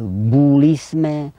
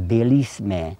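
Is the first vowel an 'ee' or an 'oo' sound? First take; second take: oo; ee. First: The first vowel is an 'oo' sound. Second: The first vowel is an 'ee' sound. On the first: This is the local dialect form. "ходи говорять булісме" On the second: This is the standard form. "не говорять так, як чехи"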